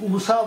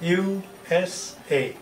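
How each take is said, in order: First: The letters are blended into one word. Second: Each letter is pronounced separately. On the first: The article 'the' is not needed before it. "আমি যদি উষা বলতাম তাহলে দিতাম না।" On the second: The article 'the' is needed before it. "আমি কি বলছি?"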